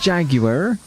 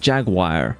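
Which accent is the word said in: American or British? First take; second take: British; American. First: It is said in a British accent. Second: It is said in an American accent.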